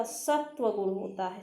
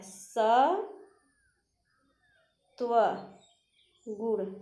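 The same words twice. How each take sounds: First: Said in the usual way. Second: सत्वगुण stretched out extremely slowly, sound by sound; teacher dictating सत्वगुण; very slow drawn-out word. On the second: Shown as a demonstration. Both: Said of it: "सतोगुण नहीं होता".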